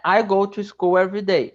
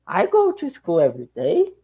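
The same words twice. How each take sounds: First: The voice falls at the end like a statement. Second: The voice rises at the end like a question. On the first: The speaker states they go to school daily. "Você está afirmando" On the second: The speaker asks whether they go to school daily. "com uma entonação de pergunta"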